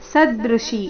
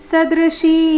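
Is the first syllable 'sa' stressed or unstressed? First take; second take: stressed; unstressed. First: The first syllable sa is stressed. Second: The first syllable sa is not stressed. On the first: The speaker calls it wrong. "ಈ ರೀತಿ ಬೇಡ ಸ ಮೇಲೆ ಆಘಾತ ಬರಬಾರ್ದು" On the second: The speaker calls it right. "ಈ ರೀತಿ ಬರಬೇಕು"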